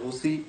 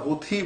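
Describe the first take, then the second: First: The middle consonant is an aspirated ch sound. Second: The middle consonant is an aspirated th sound. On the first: "কেউ ছ দিয়ে বলছে" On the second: "হুথি বলছে থ দিয়ে"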